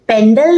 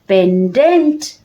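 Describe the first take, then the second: First: The word ends with an 'l' sound. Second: The word ends with an 'nt' sound. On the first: The speaker calls it wrong. "Pendle नहीं" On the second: The speaker calls it right.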